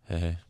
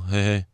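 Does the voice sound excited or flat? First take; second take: flat; excited. First: The word is said flatly, without excitement. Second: The word is said with excited, lively energy. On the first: The speaker calls it right. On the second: The speaker calls it wrong.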